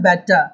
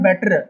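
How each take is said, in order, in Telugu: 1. చివరి 'r' ధ్వని మౌనంగా ఉంచబడుతుంది. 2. చివరి 'r' ధ్వని స్పష్టంగా ఉచ్చరించబడుతుంది. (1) "సో ఆర్ని సైలెంట్ చేయాలి" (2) "It's not better"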